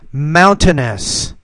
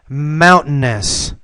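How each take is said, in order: First: The T is fully pronounced. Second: The T is a glottal stop. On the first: "I'll pronounce the T the first time" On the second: "the second time I'll do it with the glottal stop"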